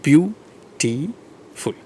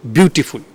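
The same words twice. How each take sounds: First: "Beautiful" very slow, three long separated syllables. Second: Said in the usual way. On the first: Shown as a demonstration. Teacher showing there are three syllables, "Beautiful" drawn out syllable by syllable. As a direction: stretch "Beautiful" out, pausing between each syllable. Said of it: "there are three syllables". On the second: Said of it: "how many syllables".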